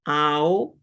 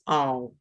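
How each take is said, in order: First: It is said slowly, with the vowels carefully shaped. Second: It is said quickly, with the vowels blended together. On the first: "we're over-pronouncing them at the moment, really, really shaping those words" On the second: "when we say it more quickly, quicker, it becomes ow"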